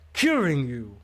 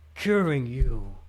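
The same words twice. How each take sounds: First: It is said higher, sounding frustrated. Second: It is said flatly, sounding stiff.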